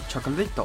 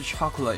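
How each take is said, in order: First: It is said with Japanese-style pronunciation. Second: It is said with English pronunciation.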